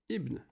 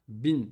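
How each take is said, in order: First: The word begins with a vowel sound. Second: The first vowel is dropped, starting with b. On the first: "normalement, il s'écrit Ibn Daoud" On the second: "ils prononcent aussi hein, Bin"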